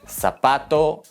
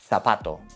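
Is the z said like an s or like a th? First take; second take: s; th. First: The z sounds like an s. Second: The z sounds like a th. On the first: "La Z suena como la S" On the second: "O en partes de España es dental"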